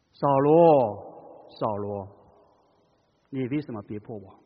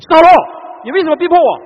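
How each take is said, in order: First: Loving, grieving. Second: Loud, furious higher accusation; the wrong way, an angry, loud, high rebuke. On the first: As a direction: plead gently like a grieving father. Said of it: "充满着怜悯，充满着爱，充满着痛惜". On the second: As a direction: shout it as an enraged accuser. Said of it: "充满着愤怒". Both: Shown as a demonstration.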